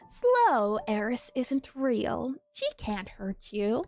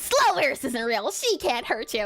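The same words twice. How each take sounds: First: It is said very slowly and drawn out. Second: It is said at normal speed.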